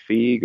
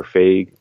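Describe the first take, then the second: First: "Feige" rhyming with "league"; FEEG pronunciation. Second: "Feige" rhyming with "vague"; FAYG pronunciation. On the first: Co-host unsure of a producer's name, "Feige" said as FEEG. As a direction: say "Feige" as FEEG, one syllable with a long ee. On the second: Co-host offering another reading, "Feige" said as FAYG. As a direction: say "Feige" as FAYG, one syllable with a long ay. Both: Shown as a demonstration. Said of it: "How do you pronounce it?".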